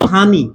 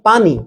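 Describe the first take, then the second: First: The word begins with an h sound. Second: The word begins with a p sound. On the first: This is a regional form. "আঞ্চলিকভাবে কেউ বলল হানি" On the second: This is the standard form. "আমি বললাম পানি"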